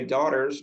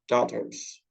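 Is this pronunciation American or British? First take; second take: American; British. First: It is said with an American accent. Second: It is said with a British accent. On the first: "In American English, we say daughters" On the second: "but in British, daughters"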